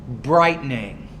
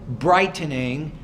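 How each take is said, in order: No difference in how they are said.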